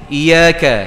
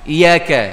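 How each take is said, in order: No difference in how they are said.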